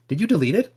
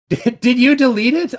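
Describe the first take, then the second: First: Said in the usual way. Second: High, louder mock panic with a laugh; mock alarm. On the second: Real, not acted. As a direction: pretend to panic that the post is gone. Streamer can't find the post.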